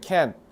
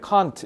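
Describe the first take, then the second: First: The final t is nearly dropped, sounding like can. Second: The final t is clearly pronounced. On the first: "미국 애들은 can 이게 can't야" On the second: "영국 애들은 딱 명확하게 발음해줘"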